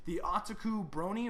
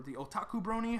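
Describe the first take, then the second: First: "Otaku" stressed on the first syllable, AH-tuh-koo; first pronunciation. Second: "Otaku" as oh-TAH-koo; alternative pronunciation. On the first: Host trying a subscriber's name, Otaku as AH-tuh-koo. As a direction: say "Otaku" opening with AH and a weak middle. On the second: Host offering another reading, Otaku as oh-TAH-koo. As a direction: say "Otaku" opening with OH and a full TAH. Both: Shown as a demonstration. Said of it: "however you wanna pronounce it".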